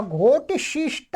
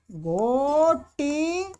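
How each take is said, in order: First: Said in the usual way. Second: घोटिशिष्टा stretched out syllable by syllable; slow model form. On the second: Shown as a demonstration. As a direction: draw out each syllable of घोटिशिष्टा slowly. Slowly models new form.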